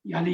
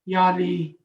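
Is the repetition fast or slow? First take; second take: fast; slow. First: The phrase is repeated quickly. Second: The phrase is repeated slowly. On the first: The speaker calls it right. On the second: The speaker calls it wrong.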